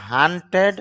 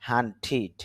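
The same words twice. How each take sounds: First: হান্টেড with a clear e sound in the last syllable, the wrong way; wrong e ending. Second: হান্টিড with a short i in the last syllable, -tid; short i ending. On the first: Teacher showing students the mistaken pronunciation, plain demo. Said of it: "না হয়ে উচ্চারণ হচ্ছে". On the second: Teacher giving students the correct pronunciation, plain demo. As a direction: end হান্টিড on a short i before the d. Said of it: "উচ্চারণ হচ্ছে". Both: Shown as a demonstration.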